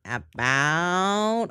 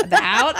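First: Her own accent on "About", round ow vowel; "About" said with the ou of her home accent; "About" the way it comes out of her naturally. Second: "About" pushed up into the nose, Southern style, with a laugh; Southern "About" with a nasal, bright ow. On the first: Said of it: "I can't say about like an American". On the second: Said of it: "it's very nasally". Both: Shown as a demonstration.

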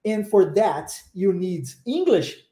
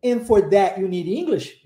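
First: Slow, separated words, T of "that" kept; slow and paused. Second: "that you" as "tha' you", T left out; connected English without the T in "that"; dropped T. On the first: Teacher training listening to variations, slow paused English. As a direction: spell out the phrase word by word. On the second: Teacher training listening to variations, that without T. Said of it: "eu omito o som do T". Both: Shown as a demonstration.

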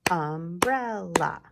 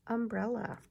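First: "Umbrella" loud and slow, three beats; clapped syllables. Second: Said in the usual way. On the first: Shown as a demonstration. Teacher slowly claps syllables for the class, loud. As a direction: clap out "Umbrella" slowly beat by beat.

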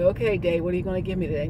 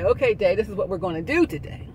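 First: Mildly asking the day what it will bring; a lightly played passive "Okay, day"; passive morning greeting. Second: "Okay, day" said louder and firmer, taking charge; commanding the day. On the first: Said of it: "You don't wake up and say". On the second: Retold or imitated. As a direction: tell the day what happens. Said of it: "No, you command the day".

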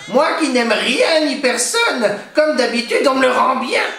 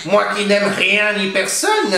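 First: A cornered hag on the edge of sobbing; despairing witch. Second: Higher, slow crone voice; a lonely witch sulking to herself; old witch muttering. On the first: Witch hiding from the crying baby, high tearful crone voice. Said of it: "elle songea". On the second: Witch talking to herself, slow bitter crone voice. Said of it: "se dit-elle". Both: A narrator's reading.

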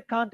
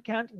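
First: CAN'T with a long "ah", as in British English; British vowel. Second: CAN'T with a flat "a" as in cat; American vowel. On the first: Teacher contrasting two vowel sounds for students, British "ah" in CAN'T. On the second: Teacher contrasting two vowel sounds for students, American "a" in CAN'T. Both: Shown as a demonstration. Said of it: "Do you know A sound and R sound".

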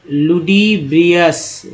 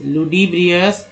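First: लुडिब्रियस drawn out slowly with a falling finish; slow careful demo. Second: Said in the usual way. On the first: Shown as a demonstration. Teacher sounding out लुडिब्रियस slowly for students. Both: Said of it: "फिर देखिए".

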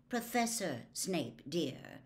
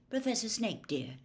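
First: Slow, mildly reproving correction. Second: Said in the usual way. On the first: A narrator's reading. Mother correcting her son's friend, reproving. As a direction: correct them gently, weighting the title. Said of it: "said Missus Weasley reprovingly".

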